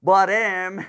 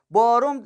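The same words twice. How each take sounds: First: بارم said as bā-rem, with e in the last syllable; correct pronunciation. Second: بارم said as bā-rom, with o in the last syllable; wrong pronunciation. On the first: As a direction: say بارم ending in -rem, firm and loud. (تلفظ درست بارم با e) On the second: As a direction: say بارم ending in -rom, high and loud. (تلفظ غلط بارم با o) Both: Shown as a demonstration. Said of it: "آقا بارم نیست و بارمه".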